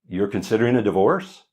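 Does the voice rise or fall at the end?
rise. The voice rises at the end, like a question.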